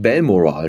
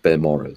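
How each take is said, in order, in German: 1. Die Betonung liegt auf einer anderen Silbe als der zweiten. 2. Die Betonung liegt auf der zweiten Silbe. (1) "Ich habe das immer falsch betont" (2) "statt Balmoral"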